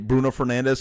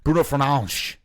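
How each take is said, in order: First: The name is said with English pronunciation. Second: The name is said with Portuguese pronunciation. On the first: "I say Bruno Fernandes" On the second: "the way that they pronounce it in Portuguese is very funny"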